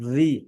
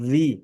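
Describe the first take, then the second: First: The v is made with teeth on lip. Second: The v is made with teeth on lip.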